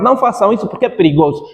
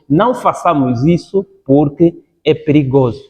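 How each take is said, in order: First: The phrase is spoken quickly. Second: The phrase is spoken slowly and calmly. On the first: "Primeiro você falou rápido" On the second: "depois volta a repetir o que você falou nas calmas para dar ênfase"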